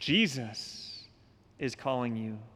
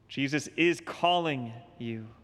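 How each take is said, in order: First: The stress falls on the word Jesus. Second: The stress falls on the word is. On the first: It is this compassionate one who calls. "Jesus, whose sacred heart beats with compassion for us sinners" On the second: The call is happening right now. "He's calling you now"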